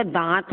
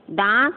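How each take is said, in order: First: Said in the usual way. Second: "दांत" as daant with a sounded n; wrong full n. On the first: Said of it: "दांत होता है शुद्ध". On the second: Shown as a demonstration. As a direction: put a full n before t in "दांत". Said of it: "दांत तो नहीं होता".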